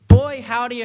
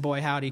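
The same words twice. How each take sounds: First: Southern twang. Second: Said in the usual way. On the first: Real, not acted. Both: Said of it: "I don't know why I just said".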